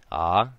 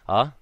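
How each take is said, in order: First: A lengthened vowel with a smooth start. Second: A short vowel with a smooth start. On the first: "Now with kahako" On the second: "going back to the beginning"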